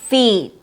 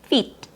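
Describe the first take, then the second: First: The vowel is held long. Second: The vowel is clipped short. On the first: The speaker calls it right. "It has a long E sound" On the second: The speaker calls it wrong. "by shortening the long E in feet"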